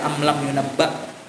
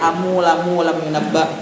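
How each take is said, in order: First: The m sounds end without any added vowel. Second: An extra u vowel follows the m sounds. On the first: The speaker calls it right. "tetap dibaca" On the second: The speaker calls it wrong. "kada mau dibaca"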